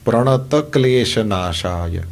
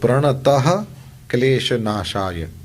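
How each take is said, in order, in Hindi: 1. 'pranata' बिना h के सीधे 'klesha' से जुड़ जाता है। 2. 'pranata' के बाद 'klesha' से पहले एक h ध्वनि आती है। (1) "ये सही है" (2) "ये अशुद्ध उच्चारण है"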